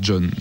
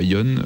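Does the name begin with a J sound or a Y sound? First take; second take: J sound; Y sound. First: The name begins with a j sound. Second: The name begins with a y sound. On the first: The speaker calls it right. "On doit dire John" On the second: The speaker calls it wrong. "et pas Yon"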